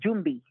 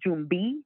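First: The final vowel is kept short. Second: The final vowel is drawn out long.

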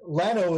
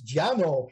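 First: The name is said with an anglicized pronunciation. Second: The name is said with a Spanish pronunciation. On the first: This is how locals usually say the name. The speaker calls it wrong. "very anglicized ways of pronouncing them" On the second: This is the name's original form. The speaker calls it right. "their original values"

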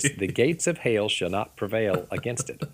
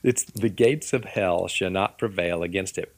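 First: Hell is drawled into hail in a Southern accent. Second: Hell is said plainly without a Southern drawl.

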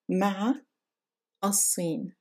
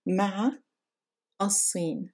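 First: A pause and glottal stop separate the words. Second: The same.

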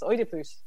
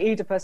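First: The name is said with a Greek pronunciation. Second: The name is said with a British English pronunciation. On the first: The speaker calls it right. "in Greek it's Oedipus" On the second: The speaker calls it wrong. "I say Oedipus"

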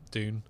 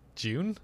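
First: It has only a mild British accent. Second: It has a strong British accent. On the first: The speaker calls it wrong. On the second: The speaker calls it right. "how do they say it really?"

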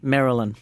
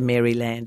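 First: Maryland is said with the American local pronunciation. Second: Maryland is said as in the British chicken dish. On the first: The speaker calls it right. "it's Maryland" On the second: The speaker calls it wrong. "They don't say Maryland. It's not like a chicken"

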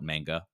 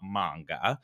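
First: It is said with an Americanized pronunciation. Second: It is said with a Japanese-style pronunciation. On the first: The speaker calls it wrong. "I did call it manga. ... that American slang on it" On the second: The speaker calls it right. "over time it has become manga"

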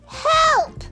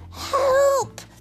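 First: The word is said very loudly. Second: The word is said quietly. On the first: The caller urgently needs someone to come. "then very loudly" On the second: The caller does not want to disturb anyone. "in a quiet voice so as not to disturb anyone"

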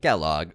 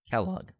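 First: It is said in a robotic voice. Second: It is said in a normal voice.

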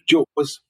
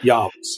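First: It begins with a J sound and ends in 'z'. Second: It begins with a Y sound and ends in 'vs'. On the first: This is the usual English pronunciation of the title. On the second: This is how others pronounced the title.

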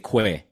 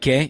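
First: The u is pronounced, said like 'kweh'. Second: The u is silent, said like 'keh'. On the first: The speaker calls it wrong. "you don't say que" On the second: The speaker calls it right. "The U you don't pronounce. It's like Guedes. You know, like que"

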